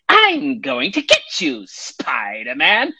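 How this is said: It is said in a cackling, witch-like voice.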